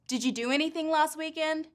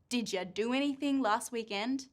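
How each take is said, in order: First: 'Did you' is said as two separate words. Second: 'Did you' blends into 'didja' with a j sound.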